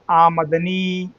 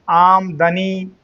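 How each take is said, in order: First: आमदनी slowly as आ-मद-नी; clear pronunciation. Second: आमदनी split as आम-दनी, म without its vowel; mistaken pronunciation. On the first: Teacher repeating the clear reading, आमदनी slowly as आमद-नी. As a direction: stretch आमदनी out, keeping आमद whole. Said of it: "इसको पढ़िए साफ साफ". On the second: Teacher quoting people's mistake, आमदनी as आम-दनी. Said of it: "भूल बस लोग पढ़ते हैं". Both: Shown as a demonstration.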